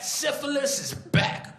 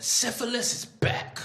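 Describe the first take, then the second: First: Slow and much higher; milk it like a movie trailer; hammed-up, high ad read; dramatic ad voice. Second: Slow, higher ad read; slow dramatic announcement. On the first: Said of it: "That's a real ad". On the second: Acted. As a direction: announce it like an ominous poster. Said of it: "Ad said".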